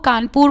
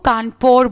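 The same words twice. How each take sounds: First: The name is said the local Indian way. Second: The name is said the British English way. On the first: "कानपुर बोलना तो आता नहीं था" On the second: "कानपुर का ये English accent है"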